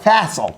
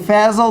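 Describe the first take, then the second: First: The middle consonant is an S sound. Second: The middle consonant is a Z sound. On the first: The speaker calls it right. "not Fassel. ... There's not a Z" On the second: The speaker calls it wrong. "I'm saying Fazel"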